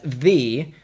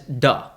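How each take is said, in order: First: The vowel is long and full. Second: The vowel is short and reduced. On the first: "as wide as" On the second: "as short as"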